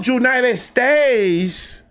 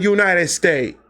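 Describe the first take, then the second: First: Put-on high, drawn-out Dominican-accented "United States"; impressed coo in a Dominican accent; imitated Dominican accent. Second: Said in the usual way. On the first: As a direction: imitate a Dominican girl, stretching each word slowly. Imitating Dominican girl's reply.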